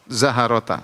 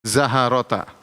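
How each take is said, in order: First: A short a vowel is heard between h and r. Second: The same.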